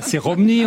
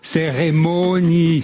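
First: The word is said in a distorted way. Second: The word is said in the standard way. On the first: The speaker calls it wrong. "pas cérémonie" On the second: The speaker calls it right.

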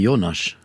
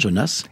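First: The name is pronounced the Hungarian way. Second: The name is pronounced the French way. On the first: "Et si je devais le prononcer en hongrois ? Vous direz" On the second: "Très bien"

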